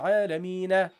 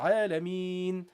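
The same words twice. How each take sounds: First: The word ends with an added na syllable. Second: The word ends on a plain n sound. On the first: The speaker calls it wrong. "Why don't you read na at the end?" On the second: The speaker calls it right. "Why is the noon sakin?"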